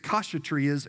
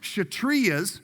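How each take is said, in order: First: The initial K sound is pronounced. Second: The initial K sound is left silent. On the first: The speaker calls it wrong. "I kept pronouncing it Kshatriyas" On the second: The speaker calls it right. "the K is silent"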